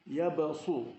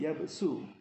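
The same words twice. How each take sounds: First: The s is heavy and emphatic. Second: The s is light and plain. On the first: The speaker calls it wrong. "apabila sin itu dibaca dengan sad" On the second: The speaker calls it right. "sedangkan huruf sin"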